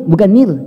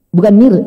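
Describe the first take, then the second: No difference in how they are said.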